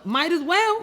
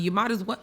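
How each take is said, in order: First: "might as well" squeaked high and loud with a rise; high exasperated squeal. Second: Said in the usual way. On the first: Real, not acted. High squeaky repeat of phrase.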